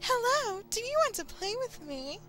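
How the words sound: It is said in a put-on, different voice.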